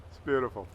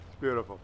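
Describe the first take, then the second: No difference in how they are said.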